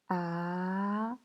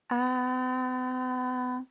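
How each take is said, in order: First: The pitch rises from mid to high. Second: The pitch stays high and level. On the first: "Deuxième ton, c'est un ton montant" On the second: "Premier ton, c'est un ton plat et haut"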